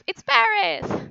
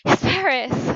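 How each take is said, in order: First: It sounds excited and thrilled. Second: It sounds relieved at finally telling someone.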